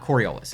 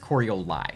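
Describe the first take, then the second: First: The name ends with an s sound. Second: The name ends with a vowel sound. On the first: The speaker calls it wrong. "It's not Coriolis" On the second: The speaker calls it right. "it's Corioli"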